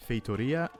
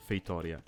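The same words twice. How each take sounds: First: Feitoria louder, with a rising tune; first stress option. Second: Feitoria with a falling tune; second stress option. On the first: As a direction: stress Feitoria early, pitch lifting. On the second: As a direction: let Feitoria drop at the end. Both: Shown as a demonstration. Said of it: "the stress changes a bit".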